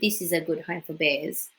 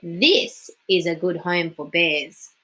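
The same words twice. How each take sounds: First: It is read plainly, without extra emphasis. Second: It is read with strong, bold emphasis.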